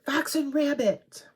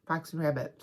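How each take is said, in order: First: High, loud fake Aussie accent; mock Australian accent. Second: Said in the usual way. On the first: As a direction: belt it out in a silly Australian accent, pitched up. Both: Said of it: "No more Australian accent".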